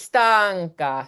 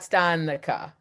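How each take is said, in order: First: The n sounds like an ng. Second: The n does not sound like ng. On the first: The speaker calls it right. "is stanca, stanca" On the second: The speaker calls it wrong. "not stanica"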